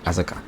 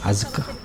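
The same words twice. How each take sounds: First: The name is said very quickly. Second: The name is said at a normal pace. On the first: "They say her name very fast, so it sounds like just like Asuka, like so fast" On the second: "I'm sorry if I'm pronouncing that wrong"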